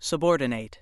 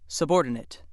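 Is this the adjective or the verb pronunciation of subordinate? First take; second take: verb; adjective. First: It is said the way the verb sounds. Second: It is said the way the adjective sounds. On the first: It means to put in a lower position. "If word seventeen is used as a verb ... it is pronounced subordinate" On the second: It means lower in rank or position. "The other pronunciation ... used when word seventeen functions as an adjective"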